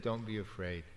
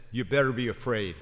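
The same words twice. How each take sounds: First: Soft, gentle reassuring words; gentle reassurance. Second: Loud, fast mock threatening warning; mock threat. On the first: Retold or imitated. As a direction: ease their fear softly. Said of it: "No, he said". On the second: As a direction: bark it as a scare tactic, hammed up. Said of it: "where Jesus says".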